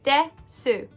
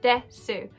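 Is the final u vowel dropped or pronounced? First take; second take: pronounced; pronounced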